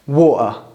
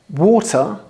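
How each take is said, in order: First: The T is replaced by a glottal stop. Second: The T is fully pronounced. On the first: "you'll say water" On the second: "instead of saying water"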